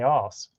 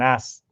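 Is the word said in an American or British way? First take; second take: British; American. First: It is said with a long British vowel. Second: It is said with a short American vowel. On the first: "Here we say arse" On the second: "the American ass"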